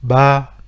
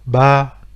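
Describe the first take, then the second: First: The syllable is said on a level tone. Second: The same.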